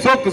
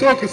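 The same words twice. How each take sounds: First: The word ends with a doubled k and u. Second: The word ends with a doubled k and u.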